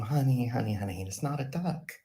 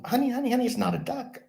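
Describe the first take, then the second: First: Mock parent. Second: High, louder mock parent pleading; hammed-up patient parent; exasperated parent. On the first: Parents correct the child. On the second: Parents at the game begging their son, high exasperated mock voice.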